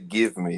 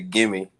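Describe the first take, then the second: First: The two words are said separately. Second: The two words blend into one word. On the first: This is not how people from the speaker's area say it. "We don't say give me" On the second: This is how people from the speaker's area say it. "we say gimme"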